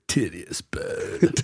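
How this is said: It is said in a put-on laid-back surfer voice.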